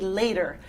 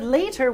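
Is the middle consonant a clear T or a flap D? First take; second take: flap D; clear T. First: The middle consonant is a quick D sound. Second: The middle consonant is a clear T sound. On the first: "we say later. And it's a quick D. It's called a flap sound" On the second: "instead of later"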